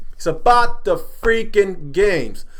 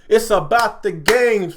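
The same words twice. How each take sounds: First: Slow, each word leaned on, stress on about; exasperated point to viewers; slow emphatic. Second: Said in the usual way. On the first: Real, not acted. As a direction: drag out It's about the freaking games for weight.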